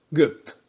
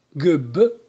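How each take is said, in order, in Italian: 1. La consonante finale è una p sorda. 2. La consonante finale è una b sonora.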